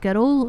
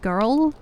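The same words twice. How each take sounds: First: It has a Scottish R sound. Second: It has a non-Scottish R sound. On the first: "the way that Scottish people do their R's. So we say like girl" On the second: "instead of girl"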